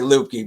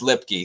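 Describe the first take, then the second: First: The first vowel sounds like 'loop'. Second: The first vowel sounds like 'lip'. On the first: The speaker calls it wrong. "So I always say Lupke" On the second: The speaker calls it right. "It's pronounced Lipke"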